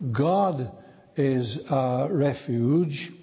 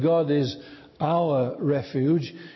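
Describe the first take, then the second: First: The stress falls on the word God. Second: The stress falls on the word our. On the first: "we put the emphasis upon that first word, upon the word God" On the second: "move again the emphasis to the third word"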